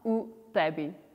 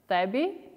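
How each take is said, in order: First: A clear U sound is heard before tebi. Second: No sound is heard before tebi. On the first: The speaker calls it wrong. "and not u tebi" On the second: The speaker calls it right. "So we say tebi"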